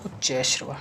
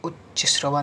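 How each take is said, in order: First: उच्च श्रवा as uchchaih-shrava; long ai vowel linking उच्च to श्रवा; corrected form. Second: उच्च श्रवा as uchchi-srava; short vowel after उच्च before श्रवा; wrong form. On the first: Teacher corrects students, उच्च श्रवा as uchchaih-shrava. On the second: Teacher shows the error, उच्च श्रवा as uchchi-srava. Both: Shown as a demonstration. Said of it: "नहीं".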